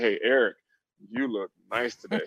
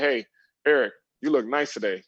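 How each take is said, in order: First: It is said in a leering, suggestive tone. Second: It is said in a plain, friendly tone.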